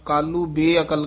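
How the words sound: The break falls after kaaloo, before beakal. The speaker calls it wrong. "ਬਿਲਕੁਲ ਗਲਤ ਹੈ"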